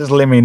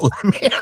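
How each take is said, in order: First: "Limmy" with an i as in "limb"; name with short i. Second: "Lemmy" with an e as in "lemon"; name with short e. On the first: Host reads a viewer's correction, "Limmy" with short i. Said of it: "not Lemmy". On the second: Host reads a viewer's correction, "Lemmy" with short e. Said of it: "Adam Gray says Limmy". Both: Shown as a demonstration.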